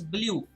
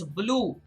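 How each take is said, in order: First: "blue" said as blyoo; blew with y-glide. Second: "blue" said as bloo, no glide; color word "blue". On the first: Teacher explaining past tense of blow, "blue" as blyoo. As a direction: put a y sound after the L in "blue". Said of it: "The past tense of blow". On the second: Teacher naming the color, "blue" as plain bloo. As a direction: go straight from L to oo in "blue". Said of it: "The color is blue". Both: Shown as a demonstration.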